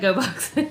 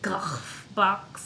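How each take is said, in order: First: It is said as a plain English 'go'. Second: It has a throaty Dutch 'ch' sound. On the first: "But we like GoBox. It flows a little better" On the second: "if we were doing it the Dutch pronunciation"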